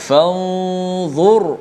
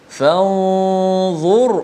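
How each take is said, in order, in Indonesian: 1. Bunyi r itu berat dan penuh. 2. Bunyi r itu berat dan penuh.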